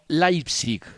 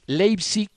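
First: The first vowel is pronounced like 'ai'. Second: The first vowel is pronounced like 'ei'. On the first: The speaker calls it right. "el diptongo EI se pronuncia AI" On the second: The speaker calls it wrong. "no es Leipzig"

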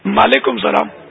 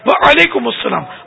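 First: The greeting starts with an 'm' sound, 'maalaikum'. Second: The greeting starts with a clear 'wa' sound. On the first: The speaker calls it wrong. "میم بولتے ہیں مالیکم سلام" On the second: The speaker calls it right. "سکتہ نہیں دیا میں نے مگر صحیح بولا نا"

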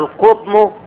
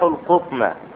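First: The word ends with a short u vowel. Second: The word ends with a short a vowel. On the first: The word is the subject of the sentence. "في المثال الأول مرفوعة آخرها ضمة" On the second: The word is the object of the verb. "في المثال الثاني جاءت منصوبة على آخرها فتحة"

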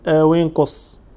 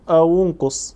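First: The linking vowel after aw is i. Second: The linking vowel after aw is u. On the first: "وإما أن تكسر" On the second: "إما أن تضم الواو فتقول أو انقص"

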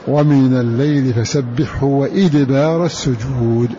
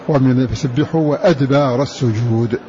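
First: The word begins with an 'i' vowel. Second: The word begins with an 'a' vowel. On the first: It is a verbal noun meaning the end of prostration. "قرأوا بكسر هذه الهمزة" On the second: It is a plural noun meaning after the prostrations. "فتكون قراءة غيرهم فتحها"

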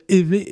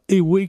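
First: The middle consonant is a v sound. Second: The middle consonant is a w sound. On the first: The speaker calls it right. "Ça se prononce bien évé" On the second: The speaker calls it wrong. "et non pas éwé comme on l'entend fréquemment"

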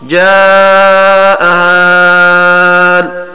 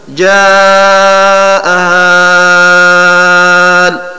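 First: The vowel is held at medium length. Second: The vowel is drawn out long. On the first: "والتوسط" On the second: "والمد في الألف التي بعدها"

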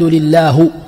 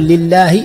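First: The final h carries a u vowel. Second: The final h carries an i vowel. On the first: The speaker calls it wrong. "وضم هاء لله" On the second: The speaker calls it right. "بدل"

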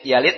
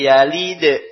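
First: The final d stops flat without a bounce. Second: The final d bounces with a slight echo.

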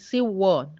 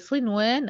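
First: The n sound merges into the following sound. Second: The n sound is clearly pronounced. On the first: The speaker calls it wrong. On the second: The speaker calls it right.

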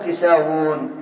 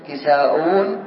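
First: The middle consonant is a w sound. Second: The middle consonant is a glottal stop. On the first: "نقلبها واوا" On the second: "بالهمزة"

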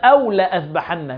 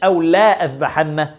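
First: The alif after the lam is not pronounced. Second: The alif after the lam is pronounced long. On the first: The speaker calls it right. "الألف اللي بعد اللام هذه لا تنطق" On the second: The speaker calls it wrong. "مش"

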